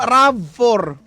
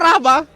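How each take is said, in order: First: The name ends in the word 'four'. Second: The name ends in a short 'va' sound. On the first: The speaker calls it right. "Sabi ko, ma, Rav four" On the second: The speaker calls it wrong. "sabi niya Rava daw"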